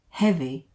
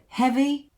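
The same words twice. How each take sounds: First: The pitch does not go up. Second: The pitch goes up.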